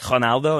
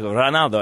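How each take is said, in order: First: The first sound is a breathy H sound. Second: The first sound is a rolled, trilled R. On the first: "you like drop the R and you say H" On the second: "he like rolled his R"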